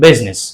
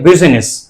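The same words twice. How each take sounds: First: The vowel after the s is silent. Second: The vowel after the s is clearly pronounced. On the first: The speaker calls it right. "It is the correct pronunciation" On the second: The speaker calls it wrong. "It looks awkward"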